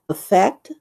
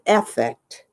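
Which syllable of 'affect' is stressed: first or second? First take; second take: second; first. First: The stress is on the second syllable. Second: The stress is on the first syllable. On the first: It is the verb meaning to influence or pretend. "as a verb, you pronounce it affect" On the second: It is the noun meaning outward display of emotion. "as a noun, we pronounce it affect"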